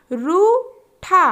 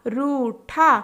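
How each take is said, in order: First: रूठा stretched very slowly; slow drawn-out word. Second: Said in the usual way. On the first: Shown as a demonstration. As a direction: draw out रूठा syllable by syllable. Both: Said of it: "तीन वर्ण वाले शब्द".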